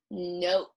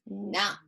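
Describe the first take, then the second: First: "note" with the long "oh" vowel, as in ocean. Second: "not" with the short "ah" vowel, as in octopus. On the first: Teacher contrasting a word pair, long vowel in "note". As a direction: say "note" slowly, the O saying its name. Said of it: "This is note". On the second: Teacher contrasting a word pair, short vowel in "not". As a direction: say "not" slowly with an open short O. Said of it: "This is not". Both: Shown as a demonstration.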